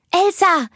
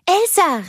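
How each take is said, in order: First: Put-on high, loud child's call to wake her sister; excited little girl calling her sister. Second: Second high, loud call of the name; little girl still trying to wake her sister; calling out again. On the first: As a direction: shout her sister's name, bright and eager. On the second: Acted. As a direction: call her once more, just as eager. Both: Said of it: "rief sie".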